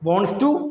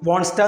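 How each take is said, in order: First: Both words are said fully and separately. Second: The two words blend into one reduced word. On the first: The speaker calls it right. "അതിനേക്കാൾ നല്ല വോൺസ് ടു ആണ്" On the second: The speaker calls it wrong. "ഷോർട്ടായിട്ട്"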